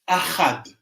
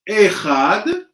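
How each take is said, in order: First: The first vowel is an a sound. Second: The first vowel is an e sound. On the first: "the text says achad, with a patah, like this" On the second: "Instead of saying אחד, like this"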